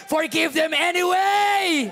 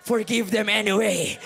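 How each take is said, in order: First: "Forgive them anyway!" shouted much higher and louder, slowed; shouted repeat. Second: Said in the usual way. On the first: Shown as a demonstration. Pastor repeating his plea to the congregation, now shouted. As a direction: hammer "anyway" with a full-voice cry. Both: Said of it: "Hindi mo kailangan mag-antay".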